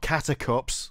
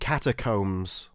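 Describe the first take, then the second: First: The last syllable does not rhyme with combs. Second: The last syllable rhymes with combs. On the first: The speaker calls it wrong. "not catacups" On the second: The speaker calls it right. "You mean catacombs"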